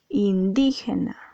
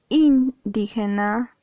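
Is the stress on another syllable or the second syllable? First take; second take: second; another. First: The stress falls on the second syllable, di. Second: The stress falls on a syllable other than di. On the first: The speaker calls it right. "Aquí la sílaba di está acentuada. ... dices indígena" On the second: The speaker calls it wrong. "tú no dices indígena"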